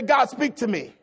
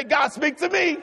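First: Said in the usual way. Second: High, emphatic shouted prayer; with conviction. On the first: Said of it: "Come on, say it with some conviction". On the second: Shown as a demonstration. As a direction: call it out boldly for the congregation to repeat. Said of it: "say it with some conviction".

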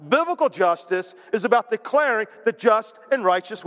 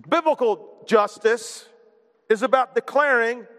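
First: Said in the usual way. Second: Slow, weighty stress on Biblical; slow emphasis. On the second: Shown as a demonstration. Preacher spelling out Biblical justice slowly. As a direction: lean hard on Biblical, then declaring.

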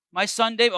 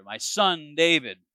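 First: Said in the usual way. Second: Slower, softened and tender; a king suddenly tender toward the son he hunted. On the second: Shown as a demonstration. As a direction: let the tone melt into affection. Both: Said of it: "his tone has changed here".

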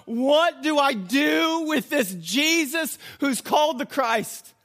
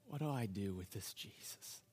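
First: High, loud, slowed-down question; preacher's shouted challenge. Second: Very soft, low private question; inward questioning. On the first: Preacher makes listeners ask themselves, shouted challenge. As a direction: hurl the question out word by word. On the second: Pilate asking in his heart, hushed inward question. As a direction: murmur it as a thought from the heart. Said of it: "In his heart, he's asking". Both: Acted.

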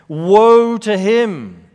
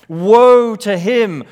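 First: Slow, loud lament, dragging out woe; solemn woe proclamation. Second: Slow, louder lament, leaning on woe; each woe heavier than the last; solemn woe proclamation. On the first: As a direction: toll it like a funeral bell. Preacher proclaims the woe oracle. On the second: Preacher repeats the woe oracle. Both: Acted.

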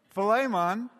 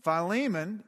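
First: Philemon said fuh-LAY-mon, raised and loud; alternative pronunciation. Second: Philemon said fy-LEE-mun; Greek pronunciation. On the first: Mimicking the second preacher, Philemon as fuh-LAY-mon, punched up. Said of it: "pronouncing it". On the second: Quoting fellow preacher's way, Philemon as fy-LEE-mun. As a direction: say Philemon with long I, stressed LEE. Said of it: "Tony was pronouncing it". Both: Retold or imitated.

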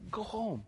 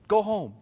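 First: Much softer dismissive "Go home."; quiet. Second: Said in the usual way. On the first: Shown as a demonstration. Pastor quietly dismissing a complaining traveler, soft. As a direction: drop "Go home." almost under your breath.

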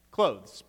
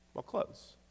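First: Said in the usual way. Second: "Well, clothes" breathed almost unvoiced; a wry whispered aside; muttered answer. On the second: Real, not acted. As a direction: toss off the obvious answer under your breath. Obvious answer, muttered then repeated.

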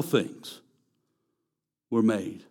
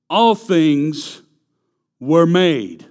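First: Softer, falling repeat of "All things were made"; preacher softly echoing his own proclamation. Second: Loud, emphatic declaration; preacher booming the verse for the congregation. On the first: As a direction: let "All things were made" drop away quietly. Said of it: "quiet echo of repeated line". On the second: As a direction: proclaim "All things were made" louder, punching each word. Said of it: "preacher repeats the verse line". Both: Shown as a demonstration.

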